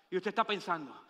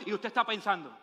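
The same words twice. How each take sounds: The two takes are said the same way.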